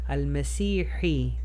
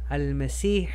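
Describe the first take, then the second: First: The word ends with an added final hi sound. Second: The word ends without a final vowel sound. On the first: The speech continues without stopping. "Si pronunciara el último harakat va a ser hi" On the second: The speaker is stopping at the end of the phrase. "No estoy pronunciando el último harakat porque estoy parando"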